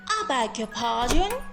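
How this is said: It is said in a sarcastic, offended tone. The speaker feels offended and wants the other to see their mistake. "you can use this phrase in a sarcastic tone like"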